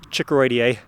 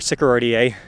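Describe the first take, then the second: First: The word begins with a ch sound. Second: The word begins with an s sound. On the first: "how you want to pronounce it" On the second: "Sycoroideae is probably better"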